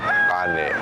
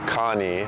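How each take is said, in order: First: The second vowel sounds like 'eh'. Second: The second vowel sounds like 'ee'. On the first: The speaker calls it right. "but kane, which is the E sounds" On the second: The speaker calls it wrong. "So it's not Kani, like the name Kani"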